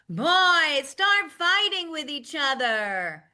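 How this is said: It is shouted at a high pitch. "I would shout it out like I'm calling out to the other room"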